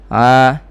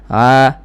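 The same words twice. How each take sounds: The two takes are said the same way.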